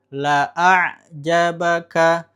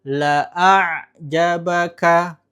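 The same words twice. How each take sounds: No difference in how they are said.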